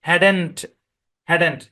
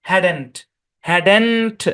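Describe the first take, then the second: Both takes have the same delivery.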